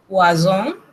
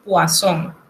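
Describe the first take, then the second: First: "poisson" said wrongly with a buzzed z; mistaken Z sound. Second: "poisson" with a clear hissed s; correct S sound. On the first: Diner mistakenly ordering poison, buzzed Z sound. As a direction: say "poisson" as "pwa-zon", like poison. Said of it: "está pidiendo veneno". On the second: Waiter correcting the diner's order, clear S sound. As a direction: say "poisson" as "pwa-son", nasal ending. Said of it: "se pronuncia como S". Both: Shown as a demonstration.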